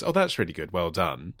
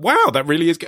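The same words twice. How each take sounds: First: Much softer, holding back a laugh; quietly faking praise for a bad drawing; suppressed laughter. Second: Higher, brighter wow of real praise; father thrilled by son's tractor drawing; genuinely excited. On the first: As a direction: praise while stifling a giggle. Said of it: "difficult to suppress laughter". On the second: Retold or imitated. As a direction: let real delight into it. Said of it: "I was excited".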